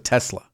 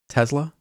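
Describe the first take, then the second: First: The middle consonant is a clear S sound. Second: The middle consonant sounds almost like a Z. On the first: The speaker calls it right. "Is it with an S? Yes. Okay, so" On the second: The speaker calls it wrong. "you pronounce it with a Z almost"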